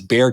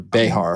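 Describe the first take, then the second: First: It is said with no middle consonant. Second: It is said with an h sound in the middle. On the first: This is how locals say the county name. "It's Bear County" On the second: This is how Spanish speakers said the name. "it was pronounced those ways"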